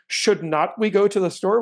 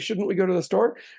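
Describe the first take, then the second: First: Should and not are said as two full words. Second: Should and not are joined into shouldn't. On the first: The speaker calls it wrong. "we don't say should not we go to the store" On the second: The speaker calls it right. "we say shouldn't we go to the store"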